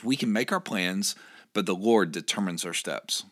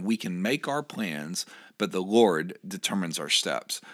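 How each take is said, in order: First: Said in the usual way. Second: Slow and weighty, each word placed; a slow emphatic scripture reading; slower, deliberate reread. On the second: Shown as a demonstration. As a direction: read it slowly so it sinks in. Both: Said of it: "Let me read that again".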